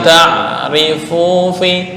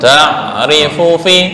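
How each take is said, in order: First: The vowel in 'fu' is drawn out long. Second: The vowel in 'fu' is short. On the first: The speaker calls it wrong. "bukan ta'rifu fi. Fu kepanjangan" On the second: The speaker calls it right.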